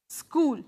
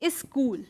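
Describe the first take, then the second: First: The word starts directly with the 's' sound. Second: A short vowel is added before the 's' sound.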